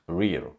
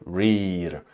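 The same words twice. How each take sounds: First: The vowel is a short E sound. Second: The vowel is not a short E sound. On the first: The speaker calls it right. "It's short E" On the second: The speaker calls it wrong. "not rear"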